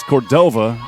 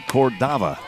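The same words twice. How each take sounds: First: Cordova with a long "oh" in the middle, cor-DOH-vuh; long-o pronunciation. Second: Cordava with an open "ah" in the middle, cor-DAH-vuh; open-a pronunciation. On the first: Announcer checks a player's surname, Cordova said cor-DOH-vuh. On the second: Announcer reports the guide's pronunciation, Cordava said cor-DAH-vuh. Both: Shown as a demonstration. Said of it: "The pronunciation said".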